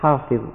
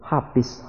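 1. Kata ini diucapkan dengan bunyi dha yang tebal. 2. Bunyi dha diganti dengan bunyi yang lebih biasa. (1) "padahal yang sebenarnya" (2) "tidak bisa menyebut huruf dha"

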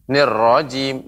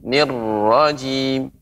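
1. Bunyi r pendek, tidak ditahan. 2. Bunyi r ganda, ditahan lebih lama. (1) "tidak langsung nirrajim" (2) "ada tasydid, maka ada lebih temponya"

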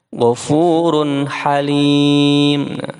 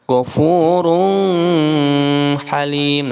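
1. Bunyi n dibaca jelas sebelum h. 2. Bunyi n dilebur ke dalam h. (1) "Cara membacanya Ghafurun Halim" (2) "bukan Ghafurun Halim. Nah, itu salah"

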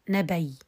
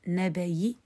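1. تنتهي الكلمة بدون أي حركة على الإطلاق. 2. تنتهي الكلمة بحركة خفيفة وقصيرة. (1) "مع السكون المحض" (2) "والروم"

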